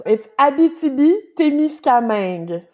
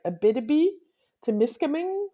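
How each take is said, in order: First: Abitibi-Témiscamingue said the French way; French pronunciation. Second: Abitibi-Témiscamingue with flat English vowels; English accent. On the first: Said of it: "let me say that slowly". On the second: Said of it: "with an English accent". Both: Shown as a demonstration.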